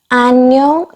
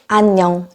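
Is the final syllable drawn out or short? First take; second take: drawn out; short. First: The final syllable is stretched out long. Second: The final syllable is short and relaxed. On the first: The speaker calls it wrong. "냥 발음을 되게 길게 하시는 분들이 많이 있는데" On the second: The speaker calls it right. "편하게 안녕"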